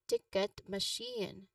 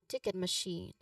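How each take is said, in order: First: The phrase is said slowly and carefully. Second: The phrase is said at a natural pace. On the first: "read each term slowly" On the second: "and then more naturally"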